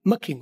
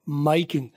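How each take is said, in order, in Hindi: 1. 'My' को छोटे 'ma' की आवाज़ में काटा जाता है। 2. 'My' को उसके पूरे डिफथॉन्ग के साथ बोला जाता है। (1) "सबसे ज्यादा मखिंग, मखिंग, और वो भी शॉर्ट मखिंग" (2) "और सबसे कम माई किंग"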